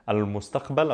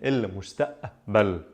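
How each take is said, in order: First: It starts with al and keeps the q sound. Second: It starts with il and drops the q sound. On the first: "instead of saying al-mustaqbal" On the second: "I'm saying il-mustaqbal, a sound instead of qa"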